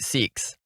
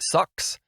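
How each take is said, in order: First: The vowel is long and high, like 'seeks'. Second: The vowel is short and central, like 'sucks'. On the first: "Australians say it like seeks" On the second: "we, we say it like sucks"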